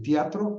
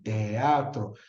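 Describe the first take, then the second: First: The 'ea' merges into one syllable. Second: The 'e' and 'a' are separate syllables. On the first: The speaker calls it wrong. "Es más fácil articular un, ia- un diptongo" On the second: The speaker calls it right. "que un hiato"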